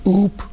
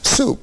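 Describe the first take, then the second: First: The first consonant is left out entirely. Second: The first consonant is an s sound. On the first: An early stage of a child's speech. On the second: The final adult form.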